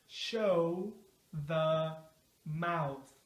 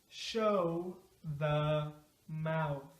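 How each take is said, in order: No difference in how they are said.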